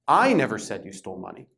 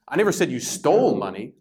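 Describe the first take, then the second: First: The stress is on the word I. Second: The stress is on the word stole.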